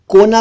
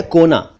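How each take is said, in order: First: "कोना" mispronounced "kauna", open au; wrong au vowel. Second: "कोना" with closed long o; correct o vowel. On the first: Teacher warns against wrong कोना, au sound. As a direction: say "कोना" as "kaw-na". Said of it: "नहीं कहना चाहिए". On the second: Teacher gives correct कोना, o sound. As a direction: say "कोना" as "koh-na". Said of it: "यह है कोना". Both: Shown as a demonstration.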